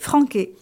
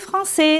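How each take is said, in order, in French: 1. La consonne du milieu est un son k. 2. La consonne du milieu est un son s.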